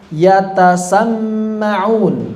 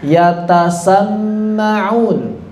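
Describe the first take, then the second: Both takes have the same delivery.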